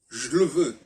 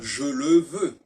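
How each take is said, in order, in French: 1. Les voyelles de 'je le' sont presque effacées. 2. Les voyelles de 'je le' sont entièrement prononcées. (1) "on doit dire je le veux" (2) "on ne doit pas dire je le veux"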